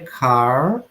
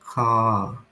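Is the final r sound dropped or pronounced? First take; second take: pronounced; dropped. First: The final r sound is pronounced. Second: The final r sound is dropped. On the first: "O rhotic pronuncia car" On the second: "o non-rhotic pronuncia car"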